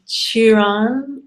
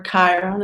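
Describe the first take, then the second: First: Chiron said as "CHEE-ron", with an ee vowel; alternative pronunciation. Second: Chiron said as "KY-ron", hard k and long i; alternative pronunciation. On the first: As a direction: say Chiron with "ee" in the first syllable. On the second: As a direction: say Chiron with "eye" in the first syllable. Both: Shown as a demonstration. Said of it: "as some people say".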